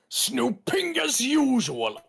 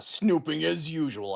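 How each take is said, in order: First: The stress is on the second syllable, 'ping'. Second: The stress is on the first syllable, 'snoo'. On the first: The speaker calls it right. "you gotta go on the ping" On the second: The speaker calls it wrong. "that's not how you're supposed to say it"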